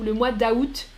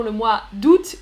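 First: D'août with A and T sounded; d'août as "da-oot". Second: D'août in one syllable, T sounded; d'août as "doot". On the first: Teacher compares common forms, d'août as "da-oot". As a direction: say d'août in two syllables, "da-oot". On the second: Teacher compares common forms, d'août as "doot". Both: Shown as a demonstration. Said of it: "c'est les deux plus".

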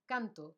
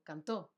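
First: Canto stressed on CAN, falling; stress on first syllable. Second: Cantó stressed on the ó; stress on final syllable. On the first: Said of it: "no hay tilde". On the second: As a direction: say cantó as can-TÓ. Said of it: "está acentuado". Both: Shown as a demonstration.

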